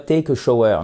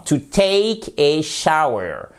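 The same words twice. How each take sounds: First: "shower" said the French way, sho-eur; mispronounced shower. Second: "shower" as SHOW-er rhyming with flower, slowly; correct English shower. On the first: Teacher showing learners what not to say, "shower" as sho-eur. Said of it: "Mais c'est pas a shower". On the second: Teacher correcting learners, slow English "shower" with an ow sound. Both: Shown as a demonstration.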